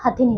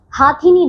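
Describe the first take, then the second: First: हथिनी with a short first "ha"; correct pronunciation. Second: हाथिनी with a long first "haa"; mispronounced word. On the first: Teacher corrects the word for pupils, properly pronounced. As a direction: keep हथिनी softer, first vowel short. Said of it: "हथिनी होता है". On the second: Teacher shows pupils the wrong word, mispronounced. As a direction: stretch the first vowel of हाथिनी. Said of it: "नहीं होता". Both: Shown as a demonstration.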